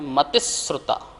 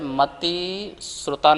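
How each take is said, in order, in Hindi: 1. Mati और shruta बिना किसी विराम के एक साथ जुड़े हैं। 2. mati और shruta के बीच एक विराम है। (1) "इसका जो शा है इसके साथ ता के साथ उच्चारण करेंगे" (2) "नहीं पढ़ेंगे"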